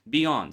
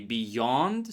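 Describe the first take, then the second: First: No Y sound is heard before the vowel. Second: A clear Y sound is heard before the vowel. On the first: "so you just don't even hear that Y" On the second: "so you clearly hear Y"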